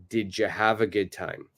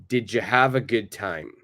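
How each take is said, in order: The two takes are said the same way.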